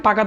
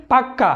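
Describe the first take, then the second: First: Said in the usual way. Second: পাক্কা with the ক doubled and held; পাক্কা said with a long held ক for emphasis; emphatic doubled k. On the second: Shown as a demonstration. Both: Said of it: "জোর দেওয়ার জন্য".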